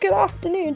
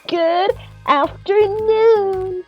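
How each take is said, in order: First: It is said smoothly as one phrase. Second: Each word is said separately with breaks.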